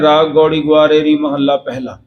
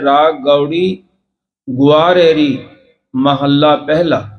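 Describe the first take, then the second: First: The phrase runs straight through without a pause. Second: The phrase is broken by a pause partway through. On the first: The speaker calls it wrong. "ਫਿਰ ਅਸੀਂ ਸਿੱਧਾ ਹੀ ਕਹਿ ਦਿੰਦੇ ਹਾਂ" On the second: The speaker calls it right. "ਇਹਦਾ ਉਚਾਰਨ ਇਹ ਵਿਸ਼ਰਾਮ ਲਾ ਕਰਕੇ ਹੈ"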